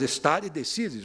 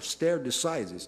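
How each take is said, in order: First: It is pronounced with Latin sounds. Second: It is pronounced with American English sounds. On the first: The speaker calls it right. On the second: The speaker calls it wrong. "alguns americanos, com a pronúncia deles, falam"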